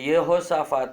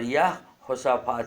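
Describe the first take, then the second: First: The name begins with a short 'yeho' sound. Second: The name begins with a long 'yaah' sound. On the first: The speaker calls it wrong. "ये यहोशाफात नहीं" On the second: The speaker calls it right. "याहो बोलना चाहिए"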